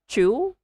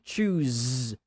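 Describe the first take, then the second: First: Wrong-way "chew" with an open ending; dropped final Z. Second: Slow "choose", ending fully voiced; clear final Z. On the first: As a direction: choose cut short to "chew", higher. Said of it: "not chew". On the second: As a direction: choose with a long buzzing Z. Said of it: "You say choose". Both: Shown as a demonstration.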